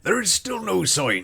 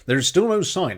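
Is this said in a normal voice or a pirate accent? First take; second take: pirate accent; normal voice. First: It is read in a West Country pirate accent. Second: It is read in a plain, normal voice.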